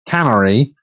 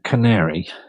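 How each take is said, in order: First: It sounds like the word cannery. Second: It sounds like the bird name canary. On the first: The speaker calls it wrong. "don't say um, cannery because that isn't correct" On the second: The speaker calls it right. "It's actually pronounced canary"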